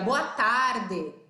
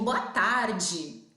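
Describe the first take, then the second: First: The final syllable has a plain, hard d sound. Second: The final syllable has a hissing dj sound. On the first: "dificilmente eu chegaria aqui para vocês e diria" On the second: "Eu digo"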